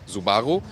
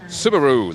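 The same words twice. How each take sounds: First: It is said with a German pronunciation. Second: It is said with a US pronunciation. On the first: "in Germany, we always say Subaru" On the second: "the U S pronunciation is more like Subaru, like kangaroo"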